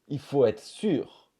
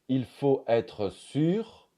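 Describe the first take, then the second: First: The RE of 'être' is not heard. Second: The RE of 'être' is pronounced.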